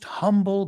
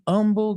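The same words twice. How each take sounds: First: The word starts with a clear h sound. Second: The word starts without an h sound. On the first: The speaker calls it right. "but you shouldn't" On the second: The speaker calls it wrong. "she omits that H"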